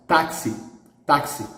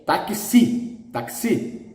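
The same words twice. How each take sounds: First: Taxi stressed on TAK, light ending; stress on first syllable. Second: Taxi drawn out on the last syllable; wrong final stress. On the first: Teacher gives the Portuguese word, taxi stressed on TAK. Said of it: "this word is pronounced". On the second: Teacher reads it by the rule, taxi stressed on final syllable. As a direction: say taxi as tak-SEE, weight at the end. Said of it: "It must be the stress in the last". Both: Shown as a demonstration.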